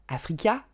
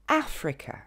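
First: Africa avec un « ka » final plein qui monte; prononciation à la française. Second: Africa accentué sur le A, finale « que » à peine audible; prononciation anglaise. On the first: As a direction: dis Africa à la française : a-fri-ka. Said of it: "L'Afrique va pas se dire". (Africa syllabes égales, finale bien ouverte) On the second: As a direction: dis Africa à l'anglaise : A-fre-que. (Africa, A fort et voyelles suivantes réduites) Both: Shown as a demonstration.

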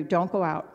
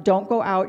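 First: Said in the usual way. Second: Don't go out said louder, firm warning; warning to self. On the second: Retold or imitated. Telling herself firmly not to leave home, louder warning. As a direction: snap a sharp inner warning, louder. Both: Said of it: "I said to myself".

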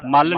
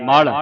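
First: ਮਲ with short vowel and heavy ll; ਮਲ said as mall, short a; mistaken heavy l. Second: ਮਲ with a long, light single l; ਮਲ said open, without doubling; correct l sound. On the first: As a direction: clamp quickly onto a doubled l in ਮਲ. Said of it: "ਮਲ ਨਹੀਂ ਕਹਿਣਾ ਇਹਨੂੰ". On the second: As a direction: ease into the l of ਮਲ. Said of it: "ਮਲ ਨਹੀਂ ਕਹਿਣਾ". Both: Shown as a demonstration.

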